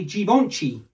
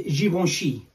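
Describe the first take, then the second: First: "Givenchy" as jee-von-chee; hard j and ch in "Givenchy"; accented mispronunciation of Givenchy. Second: "Givenchy" as zhee-von-shee; brand pronunciation of Givenchy. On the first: Showing how accented speakers say it, Givenchy as jee-von-chee. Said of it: "people with an accent might say". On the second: Showing the co-host the brand's way, Givenchy as zhee-von-shee. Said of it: "that's how the brand is spoke". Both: Shown as a demonstration.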